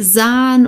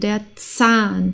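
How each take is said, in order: First: The first consonant is pronounced weakly. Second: The first consonant is pronounced strongly. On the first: The speaker calls it wrong. "also nicht Zahn" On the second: The speaker calls it right. "es muss stark ausgesprochen werden"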